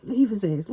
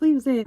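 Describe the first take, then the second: First: Said in the usual way. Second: High, loud, pressing repeat; urgent loud insistence. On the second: Retold or imitated. Godmom telling her to leave him, loud and urgent. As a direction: hammer it home louder.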